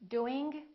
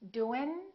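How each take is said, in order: First: The final g sound is audibly released. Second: The final g sound is dropped entirely. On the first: "The first two are not correct" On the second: "The first two are not correct"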